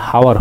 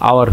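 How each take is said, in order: First: "হাওয়ার" with an audible initial H; sounded H, mistaken. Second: "আওয়ার" begun on the vowel, no H; silent H. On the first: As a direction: wrongly pronounce the H at the start of "হাওয়ার". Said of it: "এটা হাওয়ার হয় নাই". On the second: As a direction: say "আওয়ার" with the initial H left silent. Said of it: "এইচের উচ্চারণ silent হয়ে". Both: Shown as a demonstration.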